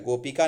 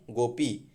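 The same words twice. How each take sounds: First: गोपिका with KAA on the end; wrong form गोपिका. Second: गोपी ending in long EE; correct form गोपी. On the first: Teacher rejects the gender form, mistaken word. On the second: Teacher corrects गोपिका, shorter form. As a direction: say गोपी, go-pee, no KAA. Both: Shown as a demonstration. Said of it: "गोपिका नहीं".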